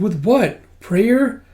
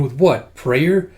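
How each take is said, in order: First: High, rising disbelief; incredulous question. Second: Scoffing scientist. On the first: Mistakenly voiced character doubts the revival, incredulous. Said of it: "Oh, sorry, it's the scientist going". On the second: Scientist doubts the revival, scoffing. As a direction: toss it off as a skeptical scientist. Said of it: "it's the scientist going". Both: Acted.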